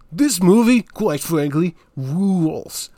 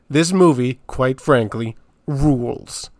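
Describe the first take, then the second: First: It is said in a put-on character voice. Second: It is said in the speaker's natural voice. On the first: The speaker calls it right. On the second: The speaker calls it wrong.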